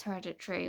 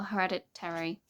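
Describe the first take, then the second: First: "Hereditary" ending in a quick "tree"; Hereditary, first attempt. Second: "Hereditary" ending in two syllables, "terry"; Hereditary, second attempt. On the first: Vlogger unsure of the film title, Hereditary ending in "-tree". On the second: Vlogger correcting herself on the film title, Hereditary ending in "-terry". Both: Shown as a demonstration. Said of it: "how are you supposed to say that word?".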